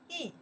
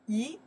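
First: The syllable has a falling tone. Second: The syllable has a rising tone. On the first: "4 tones" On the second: "pronounce second tone"

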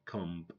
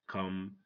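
First: The final B is pronounced. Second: The final B is silent. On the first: The speaker calls it wrong. "So don't say comb" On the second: The speaker calls it right. "Say come"

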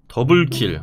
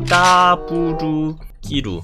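First: It is said with plain Korean pronunciation. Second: It is said with Japanese-style pronunciation.

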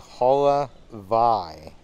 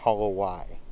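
First: The consonant before the last syllable sounds like V. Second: The consonant before the last syllable sounds like W. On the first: The speaker calls it right. "the W in a lot of Hawaiian words is pronounced like a V. So that word is actually Holovai" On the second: The speaker calls it wrong. "not Holowai"

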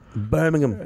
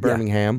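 First: The final syllable is a weak, reduced 'um'. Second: The final syllable is a full 'ham'.

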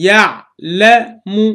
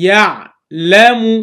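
Both takes have the same delivery.

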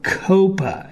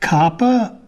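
First: The first vowel sounds like in Copacabana. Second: The first vowel sounds like in copper.

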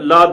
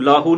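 First: The word ends without an added 'o' vowel. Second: The word ends with an added 'o' vowel. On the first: The word means profit. The speaker calls it right. "ਲਾਹ ਦਾ ਮਤਲਬ ਹੈ ਲਾਭ" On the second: The meaning of the word changes. The speaker calls it wrong. "ਇਹਨੂੰ ਲਾਹੋ ਨਹੀਂ ਬੋਲਣਾ"

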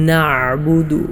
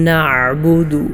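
The two takes are said the same way.

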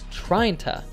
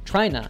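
First: The g is dropped and 'to' becomes 'ta'. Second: The two words merge into one short word. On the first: "So we would say tryin ta" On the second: "reduced even further in fast speech by saying just tryna"

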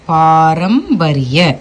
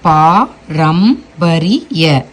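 First: The word is said smoothly without syllable pauses. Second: The word is split with pauses between syllables. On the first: "அதை நம்ம சேர்த்து படிக்க" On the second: "முதல்ல அவங்க பழகும் போது இப்படி தான் பழகணும்"

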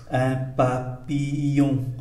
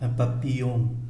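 First: The phrase is said slowly and carefully. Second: The phrase is said quickly and smoothly. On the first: "tôi đọc chậm" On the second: "Tôi đọc nhanh là"

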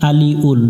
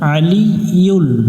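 First: There is no y sound before the final ul. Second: There is a clear y sound before the final ul. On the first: The speaker calls it wrong. "এখানে অনেকজনে ভুল করে আলি উল" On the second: The speaker calls it right. "আলি উল পড়া যাবে না, আলি ইউল"

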